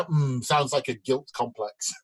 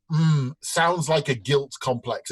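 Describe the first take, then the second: First: Slow, clear punchline with "guilt" said like "gilt"; slow punchline again. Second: Slow, deliberate punchline; drawn-out joke delivery; slow doctor punchline. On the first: Shown as a demonstration. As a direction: land "guilt" as "gilt", drawn out. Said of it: "guilt is J, uh, G I L T". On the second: Acted. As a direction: draw it out like a pondering doctor. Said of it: "the doctor says".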